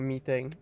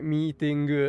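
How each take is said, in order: First: It is said with ordinary English sounds. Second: It is said with Japanese loanword sounds. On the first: "instead of meeting" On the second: "JP borrowed words"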